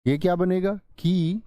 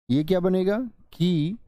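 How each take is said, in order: Both takes have the same delivery.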